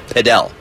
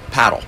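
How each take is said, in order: First: The word is said a fancier way. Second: The word is said the plain, everyday way. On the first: This is how it is said in the United States. "make it a little fancy and pronounce it padel" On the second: This is how it is said around the world. "Around the world, it's pronounced paddle"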